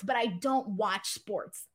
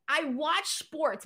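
First: Slow, hitting "don't" in "I don't watch sports"; stress on don't. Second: Slow, leaning on "watch" in "I watch sports"; stress on watch. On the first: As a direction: punch "don't" against the first take. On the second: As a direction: draw out "watch" to set up the contrast. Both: Shown as a demonstration. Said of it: "Let me explain".

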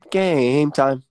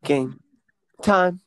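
First: "Game" drawn out long, then a short "time"; stretched first word. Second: "Game", pause, "time", second word higher; split in two. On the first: Co-host announcing the quiz segment, "Game" stretched out like a jingle. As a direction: hold the vowel of "Game", no gap before "time". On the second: Co-host announcing the quiz segment, "Game ... time" broken by a pause. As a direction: say "Game time" as two separate words with a gap. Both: Pretend.

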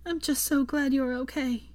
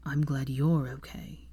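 First: Higher Hermione voice, relieved through tears; lightly voiced teary relief; tearful smile. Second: Lower, slow and sincere; sincerely. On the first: Hermione to recovering Draco, relieved through tears. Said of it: "smiled through her tears". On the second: Acted. Draco answering Hermione, slow sincere reply. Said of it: "he replied sincerely".

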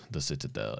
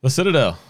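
First: Much lower and softer title read; low echo of title. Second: Raised, ringing title call; title announcement. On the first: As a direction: drop it down low and hushed. Repeats title low and soft. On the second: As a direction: announce it like a big reveal. Announcing the next trailer title. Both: Real, not acted.

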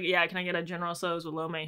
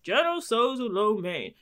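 First: Said in the usual way. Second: Mimicked stranger. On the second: Man listening in on her food order, mimicked stranger. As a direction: imitate a stranger butting in with relish.

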